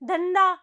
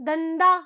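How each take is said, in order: The two takes are said the same way.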